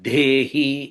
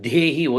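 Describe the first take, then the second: First: The word is said with pressed, forceful emphasis. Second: The word is said plainly, without extra force. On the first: The speaker calls it right. "దేహి ఒత్తి పలకాలి" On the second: The speaker calls it wrong. "మామూలు"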